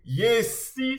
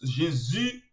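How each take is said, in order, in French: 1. La consonne du milieu se prononce comme un s. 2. La consonne du milieu se prononce comme un z. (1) "ça tu es dans le bon" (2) "c'est comme si tu le prononçais sous forme d'un Z"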